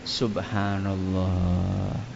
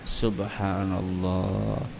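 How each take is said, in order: The two takes are said the same way.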